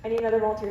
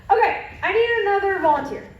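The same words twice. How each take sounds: First: Said in the usual way. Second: Calling out. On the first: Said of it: "repeat to class". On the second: Real, not acted. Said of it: "calling for volunteers".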